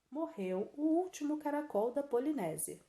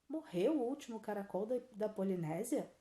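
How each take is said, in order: First: It is said as an exclamation. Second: It is said as a question.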